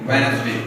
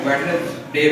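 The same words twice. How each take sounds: First: वेडनेसडे said as "Wensday", D dropped; silent D. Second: वेडनेसडे said as "Wed-nes-day", D pronounced; wrong, sounded D. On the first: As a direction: leave the first D out of वेडनेसडे. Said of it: "इसमें आप डी नहीं पढ़ते". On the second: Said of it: "आप बजाय इसके कि आप इसको". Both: Shown as a demonstration.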